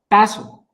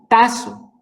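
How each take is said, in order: First: The middle consonant is pronounced as s. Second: The middle consonant is pronounced as s.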